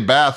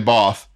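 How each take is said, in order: First: The word is said with an American accent. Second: The word is said with a British accent. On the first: "We say Bath, and when we do, the British kind of cringe" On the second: "The British say Bath"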